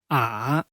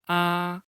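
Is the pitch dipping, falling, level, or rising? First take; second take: dipping; level. First: The pitch first falls, then rises again. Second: The pitch stays high and level throughout. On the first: "Falling rising tone. Pronunciation is to first fall and then rise" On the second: "Flat tone, its pronunciation is flat. The voice is in the highest position"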